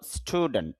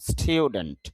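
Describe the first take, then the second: First: The first syllable sounds like plain 'stoo'. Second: The first syllable sounds like 'stew'. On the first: The speaker calls it wrong. "যদি আমরা স্টুডেন্ট বলি" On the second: The speaker calls it right. "স্টুডেন্ট একটু স্টিউ sound হবে"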